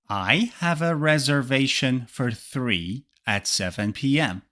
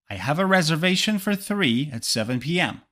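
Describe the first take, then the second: First: It is said slowly. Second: It is said at natural speed.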